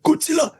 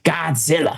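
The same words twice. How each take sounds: First: Very high, wary sing-out; nervous calling out. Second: Put-on American "Godzilla"; American guide. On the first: Retold or imitated. Visitors open cabinets checking for the snake, high mock-nervous call. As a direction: call "Godzilla" high as if checking it's absent. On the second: Guide answers baffled visitors, put-on American voice. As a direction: answer in a lightly imitated American drawl.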